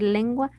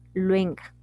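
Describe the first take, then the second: First: The 'u' sound comes after the 'ng'. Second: The 'u' sound comes before the 'ng'. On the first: The speaker calls it right. "en vez de decir lengua" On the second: The speaker calls it wrong. "están moviendo fonemas"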